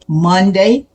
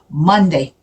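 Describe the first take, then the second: First: The stress is on the second syllable, day. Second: The stress is on the first syllable, Mon.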